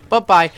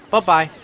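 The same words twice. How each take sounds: The two takes are said the same way.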